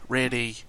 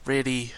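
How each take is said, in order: Both takes have the same delivery.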